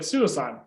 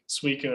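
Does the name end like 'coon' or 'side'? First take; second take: side; coon. First: The name ends with a 'side' sound. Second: The name ends with a 'coon' sound. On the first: The speaker calls it wrong. "I called it Suicide my entire life" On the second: The speaker calls it right. "I had no idea that's how you pronounced it ever"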